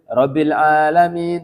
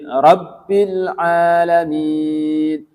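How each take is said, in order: First: The b sound is short and single. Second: The b sound is held long and doubled. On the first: The speaker calls it wrong. "Enggak boleh" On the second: The speaker calls it right. "Itu di atas ba-nya ada tasydid"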